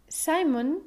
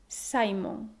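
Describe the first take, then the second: First: Simon said the English way, SAI-mun, higher pitch; English pronunciation. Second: Simon as SAI-mon, stress on SAI, full o; Spanish vowels in Simon, falling SAI-mon; Hispanicized English name. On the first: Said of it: "el sonido próximo al inglés". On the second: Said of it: "con el acento en la penúltima". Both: Shown as a demonstration.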